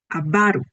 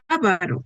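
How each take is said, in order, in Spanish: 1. El acento está en la segunda sílaba. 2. El acento está en la primera sílaba. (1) "en lugar de avaro" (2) "cuando digo ávaro"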